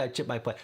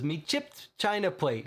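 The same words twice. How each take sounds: First: Said in the usual way. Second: Light Cockney, higher on China plate; a light Cockney accent; Cockney quote. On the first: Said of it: "He doesn't say". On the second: Retold or imitated. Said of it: "He says".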